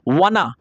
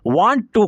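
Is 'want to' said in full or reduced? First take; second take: reduced; full. First: The words blend into one short reduced form. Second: Both words are said fully and separately.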